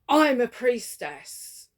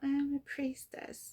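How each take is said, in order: First: It is said with grounded, confident power. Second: It is said hesitantly and timidly.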